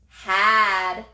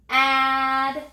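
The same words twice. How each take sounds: First: Said in the usual way. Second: "Add" stretched loud after a separate puff of h; sounded out. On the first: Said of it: "What's the word?". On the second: Shown as a demonstration. Teacher has children touch and say the last word, "Add" sounded out slowly. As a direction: breathe a lone h, then draw out "Add". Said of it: "Touch and say".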